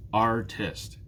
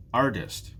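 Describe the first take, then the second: First: Artist in two drawn-out beats, Ar, tist; syllable by syllable. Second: Said in the usual way. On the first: Shown as a demonstration. Teacher counting beats in the job name, "Artist" split in two. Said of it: "it's two". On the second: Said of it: "What about the job artist?".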